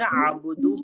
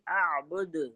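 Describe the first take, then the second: First: The word ends with an added u vowel. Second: The word ends on a bare d consonant. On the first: The reciter continues without stopping at the verse end. "अगर हम आयत नहीं करेंगे तो फिर आबुदू पढ़ेंगे" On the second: The reciter stops at the end of the verse. "आयत करने पर दाल साकिन हो जाएगा"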